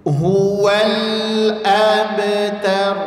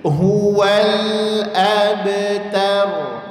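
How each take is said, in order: The two takes are said the same way.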